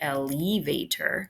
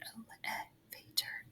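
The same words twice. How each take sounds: First: The second vowel is said long. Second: The second vowel is said short. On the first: The speaker calls it wrong. "it looks like it would be elevator" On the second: The speaker calls it right. "This is short"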